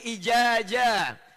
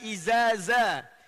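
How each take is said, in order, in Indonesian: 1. Kedua konsonan itu bunyi j. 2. Kedua konsonan itu bunyi z. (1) "ada yang ijaja" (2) "ada yang baca idza ja jadi izaza"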